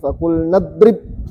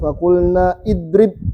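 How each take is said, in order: First: The vowel before drib is dropped. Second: The vowel before drib is pronounced. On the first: The speaker calls it right. "tapi fakulna drib" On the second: The speaker calls it wrong. "Nggak kita bilang fakulna idrib"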